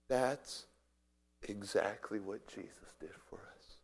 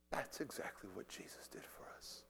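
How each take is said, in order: First: Low, soft, weighty statement; hushed. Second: Barely audible, low whispered repeat. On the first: Preacher likening the sacrifice to Jesus, hushed. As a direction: pause after the first word, then say it quietly. Preacher lands the parallel softly. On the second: Preacher repeating the parallel to Jesus, whispering. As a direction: let the voice fall away to a whisper. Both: Real, not acted.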